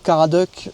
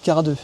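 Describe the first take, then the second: First: The name ends with a clear k sound. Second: The name ends on a vowel, without k. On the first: This is how people around here usually say it. "on dit beaucoup Caradeuc euh, ici" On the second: This is how the family says it. "mais vous, vous dites Caradeux"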